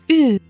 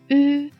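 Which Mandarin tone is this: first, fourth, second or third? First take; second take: fourth; first. First: The pitch falls sharply from high to low. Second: The pitch stays high and level.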